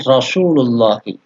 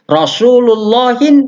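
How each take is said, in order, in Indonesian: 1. Kata ini diakhiri vokal i biasa. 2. Kata ini diakhiri bunyi n tambahan. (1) "Tak boleh bertanwin"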